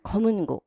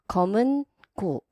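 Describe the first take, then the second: First: It is said quickly, run together as one word. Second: It is said slowly, as two separate words.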